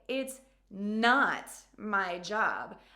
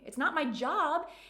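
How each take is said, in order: First: The word not carries the main stress. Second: The word job carries the main stress. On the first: The speaker dramatically refuses the task. "I am emphasizing, I am putting some drama into my communication" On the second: The speaker does it for fun, not work. "it's just pure fun and pleasure for me"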